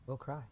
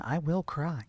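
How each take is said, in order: First: Quiet echo. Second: Said in the usual way. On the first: Shown as a demonstration.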